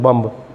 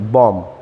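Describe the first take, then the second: First: The final b sound is pronounced. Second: The final b sound is silent. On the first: The speaker calls it wrong. "हम बोलते हैं बम्ब, ऐसे नहीं होता" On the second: The speaker calls it right. "बै नहीं बोला जाएगा"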